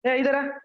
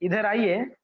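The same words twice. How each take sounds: First: Curt higher-pitched command; harsh, rude summons. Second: Courteous, sweet call at normal pitch; मीठा, आदर भरा. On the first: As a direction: call them over without any respect. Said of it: "कितना कर्कश लगती है". (कर्कश, रूखे स्वर में) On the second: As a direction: ask politely and sweetly. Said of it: "कितना मधुरता लगती है". (मधुर, विनम्र स्वर में) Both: Shown as a demonstration.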